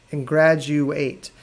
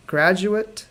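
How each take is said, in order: First: Graduate said slowly, GRAD-joo-ate, final syllable like ate; graduate, verb. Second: Graduate said GRAD-joo-it with a short final syllable; graduate, noun. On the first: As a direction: stretch graduate, ending clearly in ate. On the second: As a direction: keep the end of Graduate a quick -it. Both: Shown as a demonstration. Teacher contrasting noun and verb graduate. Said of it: "Hear the difference?".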